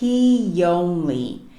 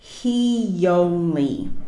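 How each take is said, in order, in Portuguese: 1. Um som suave de y liga as duas palavras. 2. Um som suave de y liga as duas palavras.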